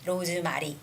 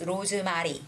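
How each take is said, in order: The two takes are said the same way.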